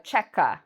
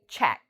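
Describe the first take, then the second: First: The word has two syllables, ending in a vowel. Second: The word has one syllable, ending in a k. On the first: The speaker calls it wrong. "Some students call this a checka" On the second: The speaker calls it right. "this is actually only one syllable"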